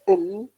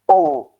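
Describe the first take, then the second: First: The L is light and clear. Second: The L is heavy and dark.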